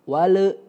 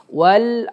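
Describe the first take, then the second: First: The l sound drags into an added vowel. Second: The l sound stops cleanly without a vowel. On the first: The speaker calls it wrong. "lam yang sukunnya itu kadang-kadang suka ke iya keseret" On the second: The speaker calls it right. "Jadi ngerem banget teman-teman ya"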